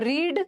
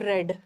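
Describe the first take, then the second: First: The vowel is long, like 'reed'. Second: The vowel is short, like 'red'. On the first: It is the present form. "रीड का तीनों same होगा लेकिन उच्चारण अलग हो जाएगा" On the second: It is the past form. "Spelling तो same है बट प्रोनाउंसिएशन अलग होगा"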